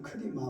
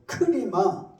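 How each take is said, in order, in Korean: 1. 이 단어는 힘을 더 주지 않고 평범하게 말합니다. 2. 이 단어는 강하게, 터뜨리듯 힘을 줘서 말합니다. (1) "그냥 크리마" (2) "힘을 주라 말이야"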